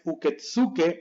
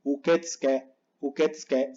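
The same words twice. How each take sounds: First: Uketsuke slowly as "u-ke-tsu-ke"; slow uketsuke, every syllable full; unnatural full U. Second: Uketsuke squeezed to "uketske"; more natural, silent U. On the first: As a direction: voice the middle U in uketsuke clearly. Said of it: "eso no me suena natural". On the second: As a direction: drop the U after "ts" in uketsuke. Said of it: "Más natural". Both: Shown as a demonstration.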